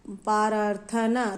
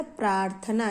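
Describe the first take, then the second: First: प्रार्थना drawn out slowly as पर-रा-थना; प्रार्थना split with extra vowels; wrong pronunciation. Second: प्रार्थना with a tight प्र and half र; प्रार्थना the right way; correct pronunciation. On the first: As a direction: sound out प्रार्थना wrongly, slow. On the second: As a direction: say प्रार्थना properly, clusters joined. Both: Shown as a demonstration. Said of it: "तो ये प्रार्थना नहीं होता है".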